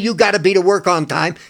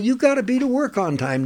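First: It is said in a harsh, scolding tone. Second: It is said in a kind, nurturing tone.

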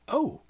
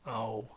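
First: It sounds surprised. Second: It sounds disappointed.

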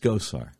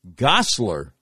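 First: The name has no L sound. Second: The name has an added L sound. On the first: The speaker calls it right. "It's Gosar" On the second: The speaker calls it wrong. "There's no L in the guy's last name"

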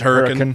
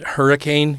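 First: The name is said the local way. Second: The name is said the standard, general way. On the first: This is how residents say the town's name. "the local pronunciation is Hurricane" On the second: This is how outsiders would say the name. "for people outside of Utah who don't know"

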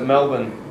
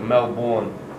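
First: Melbourne is said the Australian way. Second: Melbourne is said the way locals here say it. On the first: This is how people from the city say it. "we pronounce it Melbourne" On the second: This is how people in this other place say it. "here people pronounce it like Melbourne"

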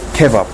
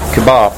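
First: The stress is on the first syllable. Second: The stress is on the second syllable. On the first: The speaker calls it wrong. "I think it's a bad pronunciation" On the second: The speaker calls it right. "So the stress is on the second syllable"

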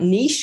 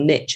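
First: It is said with a British pronunciation. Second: It is said with an American pronunciation.

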